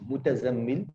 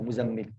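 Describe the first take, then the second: First: A t sound follows the first syllable. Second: No t sound follows the first syllable. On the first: "to say mutazammil, it can be difficult" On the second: "now you just say muzammil"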